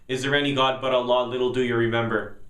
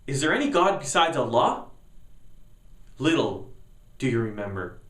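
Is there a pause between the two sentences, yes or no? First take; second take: no; yes. First: The two sentences run together flatly without a pause. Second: The two sentences are separated with a pause.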